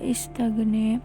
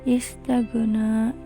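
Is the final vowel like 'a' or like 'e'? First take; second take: e; a. First: The final vowel sounds like 'e'. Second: The final vowel sounds like 'a'.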